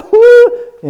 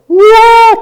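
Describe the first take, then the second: First: High whimpering cry. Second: High, loud "whoa" of elation; mock-ecstatic burst; exultant whoop. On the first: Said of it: "in very quick order". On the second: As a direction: let out a big high whoop. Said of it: "And I can go from". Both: Shown as a demonstration.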